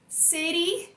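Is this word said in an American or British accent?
American. It is said in an American accent.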